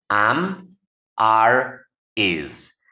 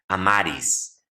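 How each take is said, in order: First: The words are said separately with pauses between. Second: The words are run together without any pause.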